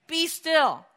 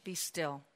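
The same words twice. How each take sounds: First: "Be still" louder, falling, firm; firm command. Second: Soft, low and still; calm command. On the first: Jesus speaking to the sea, firm falling command. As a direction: set the words down firmly on "Be". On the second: Jesus calming the storm, soft low command. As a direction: speak to the sea in a hushed command. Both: Retold or imitated. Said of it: "looked out to the sea and said".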